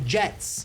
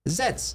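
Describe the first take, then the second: First: The word begins with a j sound. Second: The word begins with a z sound. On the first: This is the intended name. The speaker calls it right. "he was trying to say Jets" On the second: Someone could not pronounce the J. The speaker calls it wrong. "He kept saying it like a Z"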